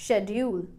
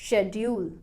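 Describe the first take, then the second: The two takes are said the same way.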